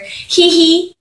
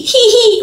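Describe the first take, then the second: First: A high little giggle read off the page; mock giggle. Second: A much higher, louder laughing "hee hee"; hammed-up giggle. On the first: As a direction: giggle "hee hee" high and silly. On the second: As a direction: overdo the giggle, laughing through it. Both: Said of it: "It's H E E space H E E".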